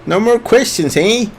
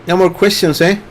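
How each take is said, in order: First: Canadian, higher and teasing; Canadian accent. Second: Light Canadian lilt; Canadian accent. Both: Pretend. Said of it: "that's my Canadian accent".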